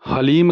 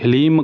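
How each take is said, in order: First: "हलीम" said as ha-leem; variant pronunciation. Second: "हलीम" said as hi-leem; short i after h in "हलीम", long ee, closing on m; variant pronunciation. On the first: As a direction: open short a after h in "हलीम", long ee, closing on m. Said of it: "हलीम कहते हैं". ("हलीम" में ह पर स्पष्ट "अ", अंत में म) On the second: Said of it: "कुछ लोग इसे हलीम कहते हैं". ("हलीम" का उच्चारण "हिलीम" जैसा) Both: Shown as a demonstration.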